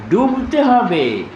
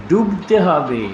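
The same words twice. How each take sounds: First: ডুবতে said higher and slowly, pressed down hard; slow, insistent stress on ডুবতে; emphatic repeat. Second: Said in the usual way. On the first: Shown as a demonstration. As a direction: lean into ডুবতে and draw it out.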